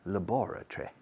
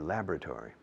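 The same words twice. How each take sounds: First: It is said with a British pronunciation. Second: It is said with an American pronunciation. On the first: "Los británicos dirían laboratory" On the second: "The Americans say laboratory"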